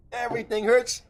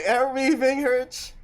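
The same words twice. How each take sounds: First: Rising whine, stress on "hurts"; whiny sore complaint. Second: Aching, pained complaint; sore muscles. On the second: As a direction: groan it out, sore all over. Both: Real, not acted.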